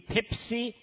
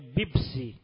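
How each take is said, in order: First: The word starts and continues with p sounds. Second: The word is said with b sounds instead of p. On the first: "میگه پپسی" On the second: "میگه بیبسی"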